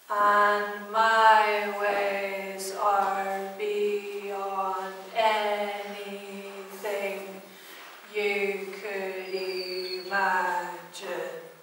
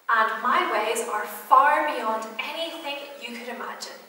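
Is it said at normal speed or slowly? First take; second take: slowly; normal speed. First: It is said very slowly. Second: It is said at normal speed.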